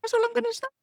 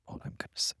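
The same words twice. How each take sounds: First: Very high, squeaky mock-coy teasing; squeaky tease. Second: Soft conspiratorial whisper; whispered tease. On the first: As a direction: squeak it out like a secret you won't share. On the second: Pretend. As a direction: breathe it like a secret. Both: Teasing repeated refusal to tell.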